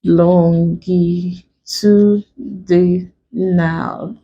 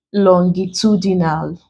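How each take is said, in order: First: LONGITUDINAL very slow, lon-gi-tu-di-nal, each syllable drawn out; broken into syllables. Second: Said in the usual way. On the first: Shown as a demonstration. Teacher breaking a word for students, LONGITUDINAL syllable by syllable. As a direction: stretch and separate every syllable of "longitudinal". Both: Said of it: "let's break".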